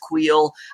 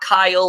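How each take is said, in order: First: The name does not sound like Kyle. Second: The name sounds like the English name Kyle. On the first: The speaker calls it right. "It's Kuiil" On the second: The speaker calls it wrong. "It's not Kyle"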